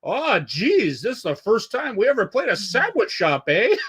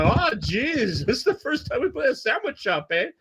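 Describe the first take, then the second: First: Put-on high, chirpy Quebec French-Canadian accent; imitating a nice Quebec singer's "Oh, geez... eh?". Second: Much higher Quebec French-Canadian impression; hammed-up Quebec singer, voice climbing; Quebec accent. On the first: Retelling the Gore Guts singer's banter, high mock Quebec accent. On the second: Repeating the singer's sandwich shop line, exaggerated high Quebec accent. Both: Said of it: "in that Quebec accent".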